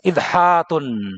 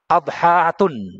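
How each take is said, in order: First: The first vowel is a front 'i'. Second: The first vowel is an open 'a'. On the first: "juga dengan kasrah" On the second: "Dengan fathah bisa"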